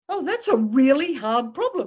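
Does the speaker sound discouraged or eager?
eager. It sounds eager and ready to take it on. The problem is treated as a challenge to work out. The speaker calls it right. "You say, ... Let's figure it out"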